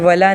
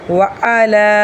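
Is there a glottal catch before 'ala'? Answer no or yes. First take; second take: no; yes. First: The words run together without a glottal catch. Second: A glottal catch separates the two words. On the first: The speaker calls it wrong. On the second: The speaker calls it right.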